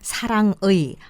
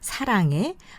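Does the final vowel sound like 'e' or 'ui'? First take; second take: ui; e. First: The final vowel is pronounced as ui. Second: The final vowel is pronounced as e. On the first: The speaker calls it wrong. "사랑의, 한국의, 승리의가 아니라" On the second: The speaker calls it right. "역시 애로 발음이 됩니다"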